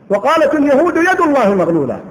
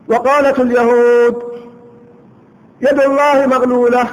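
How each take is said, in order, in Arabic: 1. لا يوجد وقف بعد al-yahud. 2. يوجد وقف بعد al-yahud.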